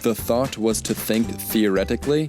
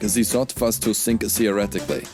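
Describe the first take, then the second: First: Plain English accent with the th sounds kept. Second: German accent with th turned into z or s. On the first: "whereas I'd say something like" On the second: "a German would say it like"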